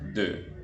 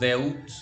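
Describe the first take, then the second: First: The word ends in one plain vowel sound. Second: The word ends with an audible t sound. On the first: The speaker calls it right. "decimos de" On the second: The speaker calls it wrong. "no decimos deut"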